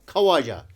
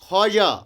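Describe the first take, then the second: First: The waw is sounded after kh. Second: The waw is silent after kh.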